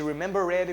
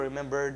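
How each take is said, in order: First: The -ed ending is said as an extra syllable. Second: The -ed ending adds no extra syllable. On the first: The speaker calls it wrong. "Em vez de" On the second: The speaker calls it right. "não fale o E"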